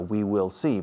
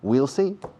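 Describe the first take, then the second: First: The word will is said in full. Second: The word will is contracted onto we. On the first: The speaker calls it wrong. "no digáis nunca we will see, porque nadie te entiende" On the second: The speaker calls it right. "hay que usar la contracción will, que suena a rueda de coche"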